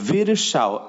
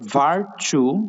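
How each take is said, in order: First: The name is pronounced like Virsao. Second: The name is pronounced like Varchu. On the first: This is the form given in the book's second chapter. "আরেকটা হচ্ছে ভিরসাও" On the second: This is the form given in the book's first chapter. "একটা হচ্ছে ভার্চু"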